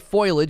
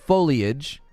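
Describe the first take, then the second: First: The middle syllable is dropped, two syllables. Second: All three syllables are said in full. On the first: "if I want to say foliage" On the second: "instead of foliage"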